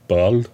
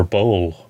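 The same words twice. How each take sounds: First: "Boll" with a short vowel, as a question; alternative pronunciation. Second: "Boll" with a long O, like bowl; unsure pronunciation. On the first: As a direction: try "Boll" short, rising doubtfully. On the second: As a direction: say "Boll" to rhyme with roll. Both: Shown as a demonstration. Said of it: "how to pronounce his name".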